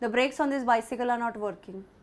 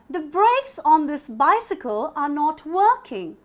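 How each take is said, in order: First: The pitch stays level throughout. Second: The pitch moves up and down throughout. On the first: "in a flat tone" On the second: "I'm also using my voice modulation, right? Up and down"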